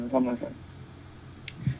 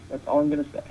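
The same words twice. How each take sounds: First: Soft, slow whisper; hushed, slow, knowing aside. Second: Said in the usual way. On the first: Real, not acted. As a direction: drop to a slow secretive whisper. Coy repeated remark.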